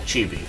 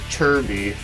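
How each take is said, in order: First: The word is said plainly as it is spelled. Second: The word is said with an r-colored first vowel. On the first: This is how the name is written. "as it's spelled" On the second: This is how the game pronounces it. "It's actually pronounced as Chirby"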